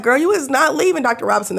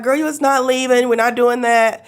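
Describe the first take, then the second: First: A hint of a sassy doctor, higher; lightly voiced firm doctor; imitating the firm doctor. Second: A hint of a sassy doctor; mild mock doctor scolding; imitating the firm doctor. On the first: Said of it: "she was like". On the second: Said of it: "That's how she talked to me".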